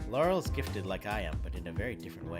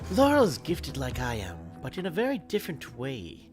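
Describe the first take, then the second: First: It is read in an unsuitable voice. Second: It is read in the character's voice. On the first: The speaker calls it wrong. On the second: The speaker calls it right.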